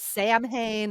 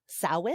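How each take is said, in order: First: The first syllable sounds like 'Sam'. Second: The first syllable sounds like 'sow', rhyming with cow. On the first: The speaker calls it wrong. "At first, I thought it was Sam Hain, and people are like, "Oh, no."" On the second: The speaker calls it right. "And sow, like cow, in"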